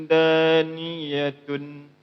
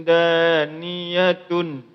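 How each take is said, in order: The two takes are said the same way.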